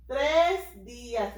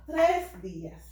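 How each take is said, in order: First: "Tres días" stretched slow with a heavy "tres"; slow stressed tres días. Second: Said in the usual way. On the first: Shown as a demonstration. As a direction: drag out "Tres días" slowly, leaning hard on "tres".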